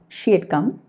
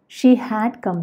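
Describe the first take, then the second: First: Had is shortened to a d sound. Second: The word had is said in full.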